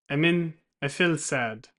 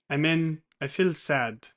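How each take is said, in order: Both takes have the same delivery.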